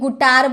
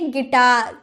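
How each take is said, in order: First: The first vowel is an 'oo' sound. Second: The first vowel is an 'i' sound. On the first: The speaker calls it wrong. "कभी से आपने गुटार बोला है, गुटार नहीं ना" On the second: The speaker calls it right. "तो इसे बोलेंगे गिटार"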